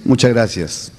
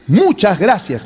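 First: Said in the usual way. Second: "muchas gracias" said strongly and slowly; thanks said with emphasis; with force. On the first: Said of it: "que decir". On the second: Shown as a demonstration. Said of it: "con fuerza, con énfasis".

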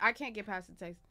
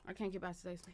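First: Said in the usual way. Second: Much softer, murmured repeat; quiet. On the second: Real, not acted. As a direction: say it again under the breath. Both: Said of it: "repeated quieter".

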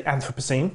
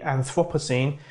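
First: Anthropocene stressed on AN, second syllable reduced; first-syllable stress in Anthropocene; own pronunciation. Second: Anthropocene stressed on THROP, with a full vowel; second-syllable stress in Anthropocene; North American pronunciation. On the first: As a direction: say Anthropocene as AN-thruh-puh-seen. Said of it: "I say Anthropocene". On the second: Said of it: "is mainly North Americans". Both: Shown as a demonstration.

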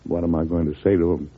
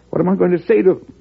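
First: Said in the usual way. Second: Higher, louder and faster, alarmed; anxious outburst. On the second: Acted. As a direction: throw the question out in growing alarm. President repeats question, alarmed.

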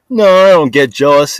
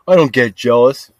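First: "I don't get jealous" pushed louder and higher; defensive louder "No, I don't get jealous"; louder denial. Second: Said in the usual way. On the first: Real, not acted. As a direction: protest it, raising the voice.

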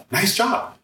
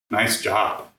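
First: Sarcastic "Nice job" with a high rising "job"; mock the praise on "Nice job", lilting up. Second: Said in the usual way. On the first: Shown as a demonstration. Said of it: "different ways you can interpret it". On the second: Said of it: "We can say".

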